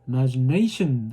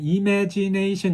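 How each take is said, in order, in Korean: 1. "na"만 강하고 나머지 음절은 약해요. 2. 모든 음절을 똑같이 또렷하고 분명하게 발음해요. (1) "네이만 정확하게 들리고 나머지들은 흐릿하게 들리죠" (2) "imagination 이렇게 하면 굉장히 혼란스러워 하고요"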